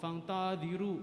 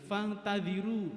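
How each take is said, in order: First: The 'ta' vowel is long, the 'ru' short. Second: The 'ta' vowel is short, the 'ru' long. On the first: The speaker calls it wrong. "ru-nya malah pendek, tanya malah panjang gitu" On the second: The speaker calls it right. "ternyata yang benar itu fantadiru, tanya pendek, ro-nya pakai waw"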